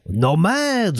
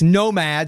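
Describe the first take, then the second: First: It is said in a put-on French accent. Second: It is said in a plain English accent.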